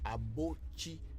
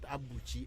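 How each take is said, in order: First: The second vowel is an 'oh' sound. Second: The second vowel is an 'oo' sound. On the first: The speaker calls it right. "Abochi. A B O T S I or A B O C H I" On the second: The speaker calls it wrong. "It's not Abuchi"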